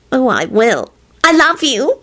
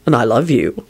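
First: Put-on high, adoring girlfriend coo. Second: Low, understated endearment; boyfriend voice. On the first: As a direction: coo it lovingly to your sweetheart. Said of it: "she cooed". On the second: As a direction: return the love in a low voice. Boyfriend returns her endearment. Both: A narrator's reading.

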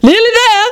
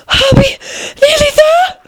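First: High, falling queenly echo; incredulous echo. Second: High, breathless little question; panting. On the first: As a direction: throw the words back, starting high. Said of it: "the Queen repe-, repeated". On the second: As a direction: gasp it out between pants. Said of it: "Alice managed to pant out at last". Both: A narrator's reading.

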